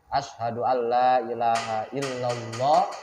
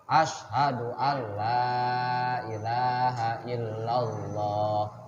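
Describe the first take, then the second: First: The nasal sound is cut short. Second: The nasal sound is held long and steady. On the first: The speaker calls it wrong. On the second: The speaker calls it right. "lama ya lama"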